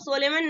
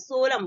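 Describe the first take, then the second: First: The final n is pronounced. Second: The final n is silent. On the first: The speaker calls it wrong. "इसको सोलेमन नहीं बोलेंगे" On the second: The speaker calls it right. "सोलम बोलेंगे"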